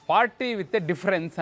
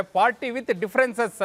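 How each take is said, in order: First: Said in the usual way. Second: Slogan twisted on "differences", plural ending sounded out; stress on differences. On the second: Retold or imitated. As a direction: land on the extra ending of "differences".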